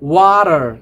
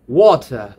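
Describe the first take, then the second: First: It has an American accent with the r pronounced. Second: It has a British accent with a silent r.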